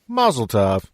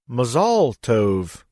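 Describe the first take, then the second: First: It is said with a plain English accent. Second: It is said with a Hebrew accent.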